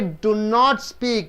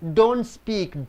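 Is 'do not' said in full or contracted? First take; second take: full; contracted. First: The words do and not are said separately. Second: Do and not merge into one syllable. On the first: The speaker calls it wrong. "You don't say do not speak" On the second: The speaker calls it right. "You say don't speak"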